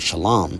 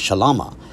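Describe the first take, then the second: First: The word ends on a bare consonant. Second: The final consonant is followed by a vowel. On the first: "with the last character unvocalized" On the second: "with the last character vocalized"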